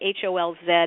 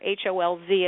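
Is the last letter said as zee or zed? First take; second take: zed; zee. First: The letter Z is said the Australian way, zed. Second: The letter Z is said the American way, zee.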